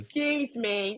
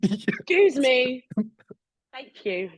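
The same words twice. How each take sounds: First: Polite tut. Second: Louder passive-aggressive tut. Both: Retold or imitated. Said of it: "Are you a tutter?".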